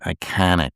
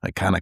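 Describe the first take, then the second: First: It is said in a Midwestern American accent. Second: It is said in a plain, neutral accent.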